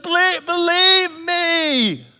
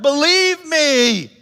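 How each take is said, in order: First: Slow, high, loud "Believe, believe me"; pleading Jesus. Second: Drawn-out, high, loud plea; pleading Jesus. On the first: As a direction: beg them to trust you, drawn out. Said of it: "He's like". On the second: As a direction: stretch out "Believe me" slowly, begging. Jesus urging belief. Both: Retold or imitated.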